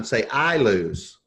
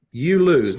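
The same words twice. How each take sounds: First: "I lose." slow, with the weight on "I"; stress on I. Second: "You lose." with the weight on "You", falling; stress on you. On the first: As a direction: slowly lean on "I" in "I lose". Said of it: "No, say it like this, John". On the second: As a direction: hit "You" hard and let "lose" fall. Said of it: "No, say it like this". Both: Retold or imitated.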